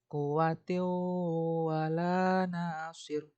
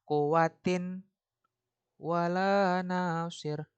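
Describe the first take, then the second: First: The n sound merges into the following w. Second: A clear n sound is heard before the w. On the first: The speaker calls it right. "dia harus masuk ke huruf wawnya ini" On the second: The speaker calls it wrong. "Dia nggak boleh"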